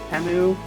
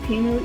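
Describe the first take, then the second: First: The first vowel sounds like 'teh'. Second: The first vowel sounds like 'tee'. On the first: The speaker calls it right. "the Super Bowl commercial is just Temu" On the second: The speaker calls it wrong. "I keep pronouncing it Timu"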